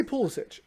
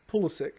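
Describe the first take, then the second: First: Pulisic as "PULL-ih-sitch"; Pulisic stressed on the first syllable, ending in "ch"; own pronunciation. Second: Pulisic said with a hard k ending; Pulisic as "PULL-ih-sick", ending in k; quoted pronunciation. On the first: Shown as a demonstration. Co-host giving his own version, Pulisic as "PULL-ih-sitch". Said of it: "I say Pulisic". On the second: Retold or imitated. Quizzing co-hosts on a player's name, Pulisic ending in a hard k. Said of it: "Jared just said Pulisic".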